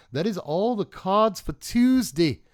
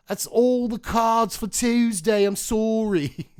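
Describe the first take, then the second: First: Slow, loud, high mock British announcement; fake British accent. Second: Loud, high, slow made-up British voice; fake British accent. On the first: Signing off to viewers in a fake British accent. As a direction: ham up a made-up British accent. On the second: Apologising to viewers in a hammed-up fake British accent. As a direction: overdo a British accent that exists nowhere. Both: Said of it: "British accents that aren't actually British accents".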